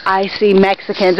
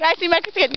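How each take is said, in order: First: Low-pitched, spooky quote delivery; mock-ominous movie line. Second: Quiet lead-in to a cheer; light mock-eager announcement. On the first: Parodying "I see dead people" to a friend, mock-ominous. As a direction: intone it like a creepy confession. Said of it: "that's scary". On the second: Redoing the movie line for a friend, lightly mock-eager. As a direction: say it softly as happy news. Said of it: "No, it's like".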